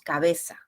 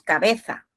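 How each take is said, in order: First: The z is said with an s sound. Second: The z is said with a th sound. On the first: This is how it is said in the Americas. "decimos cabeza" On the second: This is how it is said in Spain. "no decimos cabeza"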